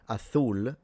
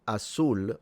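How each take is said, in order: First: The middle consonant is a th sound. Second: The middle consonant is an s sound.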